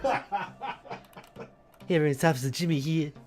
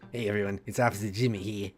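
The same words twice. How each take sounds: First: The voice is at a higher, lighter pitch. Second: The voice is at a lower, deeper pitch.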